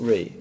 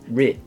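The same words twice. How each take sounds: First: The vowel is a long, soft 'ee' sound. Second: The vowel is a short, tight 'i' sound. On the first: The speaker calls it wrong. "It's not Re, ... it'sI, not E" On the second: The speaker calls it right. "it's Re. Richard. ... it'sI, not E"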